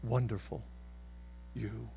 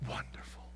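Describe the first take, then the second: First: Low, soft-spoken praise. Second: Wonderful whispered without voice. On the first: God praising the confessor in a low voice. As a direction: murmur it warmly, voiced. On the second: God whispering praise to the confessor. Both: Acted. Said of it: "God looks at the confessor and says".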